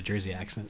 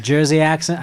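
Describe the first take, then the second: First: Said in the usual way. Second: Amateur stab at a Jersey accent; attempted Jersey accent. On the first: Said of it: "that was my attempt". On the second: Shown as a demonstration. Describing the work mom, attempted Jersey accent. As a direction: try on a Jersey accent, not very well. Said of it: "that was my attempt at a Jersey accent".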